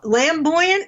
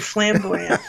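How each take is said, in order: First: The word begins with an L sound. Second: The word begins with an F sound. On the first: The speaker calls it wrong. "lamboyant, as in lamb, roasted lamb" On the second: The speaker calls it right. "or flamboyant?"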